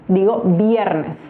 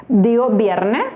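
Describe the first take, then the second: No difference in how they are said.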